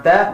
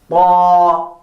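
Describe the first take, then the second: First: Ta said as a light plain t; wrong letter. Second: Ta with a heavy emphatic t; correct emphatic ta. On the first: Teacher shows the wrong ta to students. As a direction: give ta the thin wrong sound. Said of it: "It is not ta". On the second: Teacher gives students the right ta. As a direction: stress ta, full and emphatic. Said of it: "but it is ta". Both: Shown as a demonstration.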